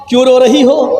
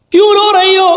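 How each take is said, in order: First: Said in the usual way. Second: کیوں pushed higher on the repeat; raised repeat. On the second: Acted. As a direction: press کیوں on the second asking. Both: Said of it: "سلطان ڈاکو اپنی ماں سے کہتا".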